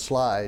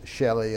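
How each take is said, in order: First: The name is said with one syllable. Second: The name is said with two syllables. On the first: The speaker calls it right. "but it's Sly" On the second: The speaker calls it wrong. "people pronounce it all kind of different funny ways"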